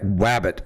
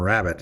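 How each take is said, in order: First: The word begins with a W sound. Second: The word begins with an R sound. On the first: "I'd say like wabbit" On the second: "rather than a rabbit"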